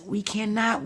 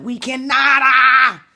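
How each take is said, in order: First: Said in the usual way. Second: "we cannot" shouted high and loud, ending in a cry; exasperated outburst, much higher and louder; passionate shout. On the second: Real, not acted. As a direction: belt it out, then let out a yell. Repeats the phrase, then shouts it.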